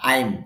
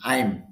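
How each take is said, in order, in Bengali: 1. একটাই সংক্ষিপ্ত উচ্চারণ, I'm। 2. একটাই সংক্ষিপ্ত উচ্চারণ, I'm।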